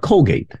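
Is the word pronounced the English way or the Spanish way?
English. The word is said with an English pronunciation. "Not Colgate"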